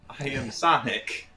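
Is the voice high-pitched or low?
high-pitched. It is said in a high-pitched voice.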